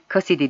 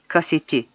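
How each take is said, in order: First: The t sound is softened to a d. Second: The t sound is kept hard. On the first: The speaker calls it wrong. "değil" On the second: The speaker calls it right. "T sesi yumuşatılmaz"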